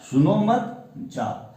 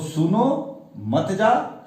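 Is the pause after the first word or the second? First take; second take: second; first. First: There is a pause after the second word. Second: There is a pause after the first word.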